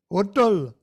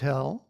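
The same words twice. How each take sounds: First: It is said in an Indian accent. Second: It is said in a standard American accent.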